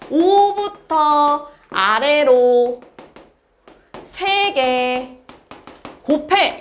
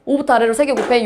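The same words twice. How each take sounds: First: Very slow, each chunk stretched and set apart; drawn-out explanation. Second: Said in the usual way. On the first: Shown as a demonstration. Teacher spelling out a new symbol for students, very slowly. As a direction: draw out 오부터, 아래로 and 세 개, pausing between.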